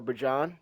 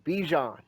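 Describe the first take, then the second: First: The first syllable sounds like 'bah'. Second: The first syllable sounds like 'bee'. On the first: This is the player's actual name. "you want to say it properly" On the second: This is the speaker's preferred version of the name. "I just prefer Bijan"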